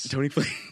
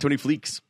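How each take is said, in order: First: The surname ends with a plain s sound. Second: The surname ends with a ks sound. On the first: The speaker calls it right. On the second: The speaker calls it wrong.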